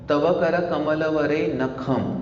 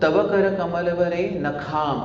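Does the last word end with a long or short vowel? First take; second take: short; long. First: The last word ends in a short 'a' vowel. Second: The last word ends in a long 'aa' vowel. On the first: The speaker calls it right. "अंत का जो pronunciation है वो अ अ अ अ है।" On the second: The speaker calls it wrong. "कोई कोई क्या बोलता है"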